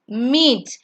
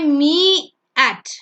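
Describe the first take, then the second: First: Only the first vowel is sounded, one syllable. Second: Both vowels are sounded, making two syllables. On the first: The speaker calls it right. "You only sound the first vowel" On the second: The speaker calls it wrong. "we don't say me at"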